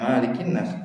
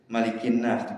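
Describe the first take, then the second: First: The first vowel of Malikin is drawn out long. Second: The first vowel of Malikin is kept short. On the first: The speaker calls it wrong. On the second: The speaker calls it right.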